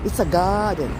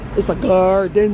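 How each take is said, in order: First: Said in an English accent without a strong R. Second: Said in an American accent with a strong R. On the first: "Let's say it the English way. A soft R" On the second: "American English, and of course we have the hard R's"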